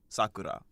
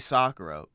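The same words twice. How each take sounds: First: The name is said with a Japanese pronunciation. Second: The name is said with an English pronunciation. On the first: "in Japanese it's like Sakura" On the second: "I say Sakura"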